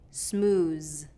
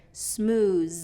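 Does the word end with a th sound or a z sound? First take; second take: z; z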